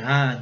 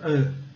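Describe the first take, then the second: First: "A" as a full open "ah"; "A" as a clear Portuguese á; wrong open A. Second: "A" as an uh from the back of the throat; "A" as a central, throaty "uh". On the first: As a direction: say "A" wide open, like "ah". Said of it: "não é A". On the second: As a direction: say "A" halfway between ah and uh. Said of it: "de fundo de garganta". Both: Shown as a demonstration.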